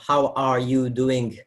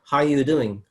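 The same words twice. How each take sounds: First: The R in "are" is clearly pronounced. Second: The R in "are" is almost dropped.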